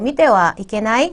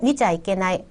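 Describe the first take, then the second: First: It is said as mite wa, fully. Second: It is said as micha, contracted.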